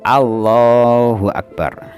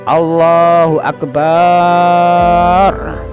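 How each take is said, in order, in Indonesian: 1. Suku kata 'ba' pada akbar itu pendek. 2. Suku kata 'ba' pada akbar itu dipanjangkan.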